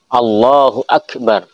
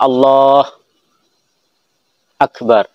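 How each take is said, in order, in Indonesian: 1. Kedua kata disambung tanpa jeda. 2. Ada jeda panjang di antara kedua kata. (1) "harus sambung" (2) "Atau lama"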